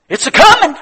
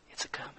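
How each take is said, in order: First: Very high, loud cry; triumphant shout. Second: Very soft, nearly whispered; hushed echo. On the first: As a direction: shout the promise to the congregation. Climax of the sermon. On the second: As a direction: drop to a hush for the congregation. Same words repeated in a hush. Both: Real, not acted.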